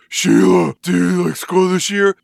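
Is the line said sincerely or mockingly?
mockingly. It is said in a mocking, taunting voice.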